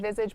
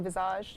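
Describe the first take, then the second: First: The word has a plain English pronunciation. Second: The word has a French-style pronunciation. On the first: "I say visage" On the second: "you could say visage. French it up a bit"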